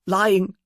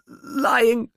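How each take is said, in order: First: Higher, breaking plea; tearful plea. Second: Much higher, near a wail; tearful plea, breaking. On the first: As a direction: let the word break in grief. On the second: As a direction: let the word crack as it rises. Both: Acted. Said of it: "she pleaded with a catch in her voice".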